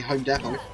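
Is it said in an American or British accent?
British. It is said in a British accent.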